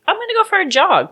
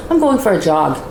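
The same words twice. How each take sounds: First: High breezy mock casual. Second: Said in the usual way. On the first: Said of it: "just being like". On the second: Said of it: "He goes".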